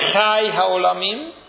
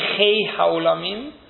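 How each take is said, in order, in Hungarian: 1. Az első szót chai-nak ejtik. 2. Az első szót chei-nek ejtik. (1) "háj, azaz élő" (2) "azok a világoknak az éltetője"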